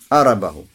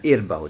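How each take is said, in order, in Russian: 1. Начинается с «а»; после «р» идёт гласный. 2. Начинается с «и»; после «р» гласного нет. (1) "приводят хамзу с фатхой. Не и, а а. Ара, не сукун, тоже с фатхой" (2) "то есть с кесрой. Хамза с кесрой. Ир, буква «ра» с чем? Сукуном"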